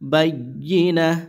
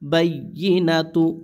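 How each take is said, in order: First: The word ends with a soft 'h' sound. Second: The word ends with a 'tu' syllable. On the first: The reading stops on this word. "ওয়াকফের সময় কি হয়ে যায়, গোলতা হা হয়ে যায়" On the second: The reading continues past this word. "তাপেশ তু"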